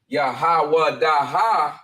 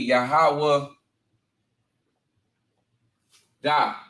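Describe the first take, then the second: First: The word ends with a full final syllable. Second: The final syllable is dropped from the word. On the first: The speaker calls it wrong. "instead of" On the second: The speaker calls it right. "the A on that character would drop"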